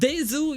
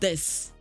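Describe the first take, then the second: First: The word ends with a final vowel sound. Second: The word ends with a final consonant sound. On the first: "spelled with a vowel at the end" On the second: "pronounced with a consonant"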